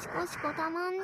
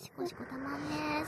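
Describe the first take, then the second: First: シコシコたまんね said higher and more excited; シコシコたまんね raised, teasing. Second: Said in the usual way. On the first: Acted. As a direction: lift the second シコシコたまんね up in pitch. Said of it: "repeated take, higher". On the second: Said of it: "repeated take".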